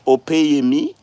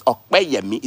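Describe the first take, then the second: First: "Opeyemi" with a plain p; mispronounced name. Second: "Okpeyemi" slowly, with joined kp; correct Yoruba pronunciation. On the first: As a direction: say "Opeyemi" without any k sound. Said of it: "You people don't pronounce it". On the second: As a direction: stress the kp burst in "Okpeyemi". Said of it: "No, it's". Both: Shown as a demonstration.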